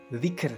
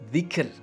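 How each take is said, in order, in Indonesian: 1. Kata ini berakhir dengan konsonan r. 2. Kata ini berakhir dengan konsonan r.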